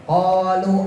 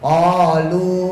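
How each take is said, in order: First: The vowel is cut short. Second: The vowel is held long. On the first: The speaker calls it wrong. "Misalnya kita baca kolu pendek ya" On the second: The speaker calls it right. "padahal kolunya panjang. Kolu, harusnya kan begitu"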